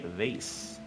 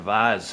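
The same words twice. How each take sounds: First: Vase is said the plain, everyday way. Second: Vase is said the posh, fancy way.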